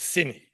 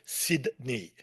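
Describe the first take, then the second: First: Sydney is said in a relaxed, local way. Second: Sydney is said in a careful, non-local way. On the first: The speaker calls it right. "Local pronunciation" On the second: The speaker calls it wrong. "nobody goes to"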